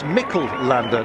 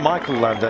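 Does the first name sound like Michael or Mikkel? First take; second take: Mikkel; Michael. First: The first name is said like Mikkel. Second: The first name is said like Michael. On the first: The speaker calls it right. "he says it's Mikkel Lander" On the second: The speaker calls it wrong. "not Michael Lander"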